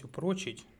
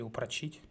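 First: Упрочить with the stress on О: упрО́чить; упрочить stressed on the middle syllable; stress on second syllable. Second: Упрочить with the stress on И: упрочИ́ть; упрочить stressed on the final syllable; stress on last syllable. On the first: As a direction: say упрочить as u-PRO-chit, punching PRO. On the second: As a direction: say упрочить as u-pra-CHIT, end-stressed. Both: Shown as a demonstration. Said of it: "кому как правильно".

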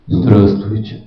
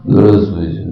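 First: Very low, heavy greeting; deep bass voice. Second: Extremely low, heavy bass greeting; General Lebed voice. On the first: Shown as a demonstration. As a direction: say it deep and oak-solid. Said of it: "Они вот так говорят". (очень низкий басовитый голос) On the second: Retold or imitated. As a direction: growl it like a gruff general. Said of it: "такой был генерал Лебедь". (густой бас генерала Лебедя)

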